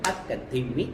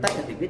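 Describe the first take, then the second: First: The syllables are spoken fast, four per beat. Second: The syllables are spoken very fast, eight per beat. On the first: "ఒక దెబ్బకి నాలుగు అక్షరాలు పలకాలి" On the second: "ఒక దెబ్బకి ఎనిమిది అక్షరాలు పలకాలి"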